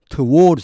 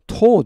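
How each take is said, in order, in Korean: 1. 영국식 억양으로 말합니다. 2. 줄인 미국식 억양으로 말합니다. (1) "영국식에서는 towards 이렇게 많이 합니다" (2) "미국식에서는 그걸 줄여서 toward 이렇게 해요"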